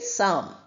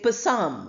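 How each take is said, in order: First: The P sound is silent at the start. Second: The P sound is pronounced at the start. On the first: The speaker calls it right. "we say psalm" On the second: The speaker calls it wrong. "we don't say psalm"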